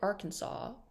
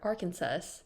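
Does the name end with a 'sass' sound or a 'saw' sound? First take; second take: saw; sass. First: The name ends with a 'saw' sound. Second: The name ends with a 'sass' sound. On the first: "with S A W" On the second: "with S A S"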